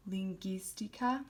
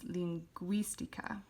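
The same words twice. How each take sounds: First: Lingüística said leen-GEES-tee-ka, silent u; hard g straight into ee in lingüística; lingüística without the w. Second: Lingüística said leen-GWEES-tee-ka, u sounded. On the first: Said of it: "it would be pronounced". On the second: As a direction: glide from g through w in lingüística. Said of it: "it becomes". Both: Shown as a demonstration.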